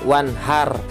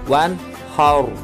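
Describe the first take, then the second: First: The r is pronounced light and thin. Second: The r is pronounced heavy and thick. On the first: The speaker calls it wrong. "nggak boleh dibaca" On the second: The speaker calls it right. "harus ditebalkan"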